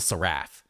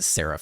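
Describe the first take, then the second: First: The ending rhymes with the word giraffe. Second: The ending does not rhyme with giraffe. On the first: The speaker calls it wrong. "I've been saying Seal Seraph like a giraffe, and that's wrong" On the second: The speaker calls it right. "I think it's a seraph instead"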